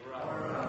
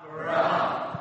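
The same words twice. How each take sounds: First: It is said at normal, softer volume. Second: It is said loudly and forcefully.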